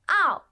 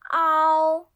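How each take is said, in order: First: The pitch falls sharply from high. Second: The pitch stays high and level.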